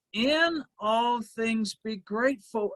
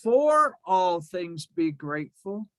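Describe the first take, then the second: First: "In all things" with "In" landing firmly; stress on in. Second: "For" lifted and stressed, rising tune. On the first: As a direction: hit "In" as the right word. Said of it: "He said". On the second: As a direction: lean on "For" as the wrong word. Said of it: "He did not say". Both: Shown as a demonstration.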